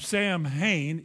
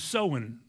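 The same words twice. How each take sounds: First: It is pronounced the way it is spelled. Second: It is pronounced unlike its spelling. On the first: The speaker calls it wrong. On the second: The speaker calls it right.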